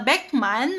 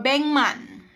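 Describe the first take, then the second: First: The first syllable ends in a K sound. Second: The first syllable ends in an NG sound. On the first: The speaker calls it wrong. "imbes na Beckman" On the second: The speaker calls it right. "magiging N G sound"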